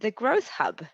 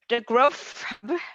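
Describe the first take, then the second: First: It is said in the speaker's ordinary accent. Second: It is said in a put-on Asian accent. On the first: The speaker calls it right. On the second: The speaker calls it wrong.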